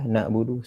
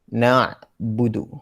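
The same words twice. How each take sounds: First: The 'ain' is said lightly, without pressing. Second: The 'ain' is pressed firmly from the throat. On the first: The speaker calls it wrong. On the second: The speaker calls it right.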